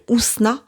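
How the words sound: The name is said with a French pronunciation. This is how French speakers usually say it. "en français, on m'appelle Ousna"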